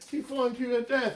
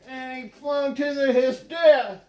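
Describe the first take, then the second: First: Said in the usual way. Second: Louder, higher mock-tragic cry on his death; dramatic outburst. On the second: Comedian hamming Steuben's fatal fling, louder mock-tragic cry. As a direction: belt the death like a melodrama.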